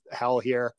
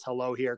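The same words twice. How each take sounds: First: Hell here, with hell said as one stressed word. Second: Said in the usual way. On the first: Shown as a demonstration. Reading the broken neon sign, stress on hell. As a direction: lean on hell as the sign's letters drop.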